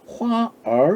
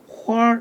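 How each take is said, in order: First: The 'er' is said as a separate syllable. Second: The curled-tongue 'r' blends into one syllable. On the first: The speaker calls it wrong. "화얼 이렇게 구분해서 발음하는 게 아니라" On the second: The speaker calls it right. "화 이렇게 동시에 발음합니다"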